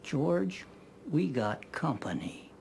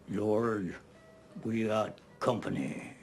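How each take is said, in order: First: It is said in his own plain voice. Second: It is said imitating Marvin's voice.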